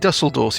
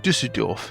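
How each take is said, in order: First: The first vowel is a plain English 'oo'. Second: The first vowel is a rounded German 'ü'. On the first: The speaker calls it wrong. "You don't say Dusseldorf" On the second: The speaker calls it right. "you say Düsseldorf"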